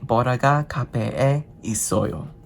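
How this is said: The pitch falls at the end. It states that Bora is at the cafe. "And go down at the end"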